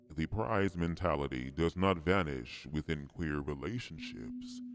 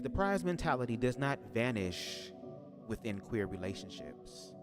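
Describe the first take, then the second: First: It is read in a special put-on voice. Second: It is read in the speaker's ordinary voice.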